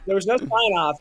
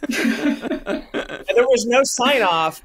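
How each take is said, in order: First: Said in the usual way. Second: Laughing it out slowly; drawn out through real laughter. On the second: Real, not acted. Recalling the unsigned email, laughing slowly.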